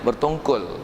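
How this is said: The word ends in an 'l' sound. "bahasa perdana punya bertongkol"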